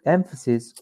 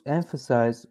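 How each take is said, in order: First: "emphasis" ending in short "sis"; corrected emphasis. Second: "emphasis" with a "size" ending; mispronounced emphasis. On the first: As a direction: say "emphasis" carefully as the noun, with "sis". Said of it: "Emphasis, I'm sorry". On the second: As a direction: slip into "emphasize" when saying "emphasis". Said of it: "Emphasis, emphasis". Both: Real, not acted.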